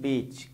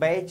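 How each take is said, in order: First: The vowel is a plain 'e'. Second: The vowel glides like 'ai'. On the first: "ए स्वर टूट कर ए में" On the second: "ए स्वर टूट कर ए में"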